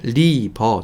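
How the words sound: It is said with flat Korean-style sounds. The speaker calls it wrong. "우리나라에서는 그냥 리버 정도로 하죠"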